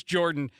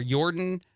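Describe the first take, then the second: First: Said in the usual way. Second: "Jordan" said with a Y sound, as "Yordan"; Y-sound pronunciation. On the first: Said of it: "I assume it's Jordan". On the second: Shown as a demonstration. Host reading out an arrested man's name, "Jordan" said "Yordan". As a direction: open "Jordan" on a Y instead of a J. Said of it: "I wanted to emphasize the Y".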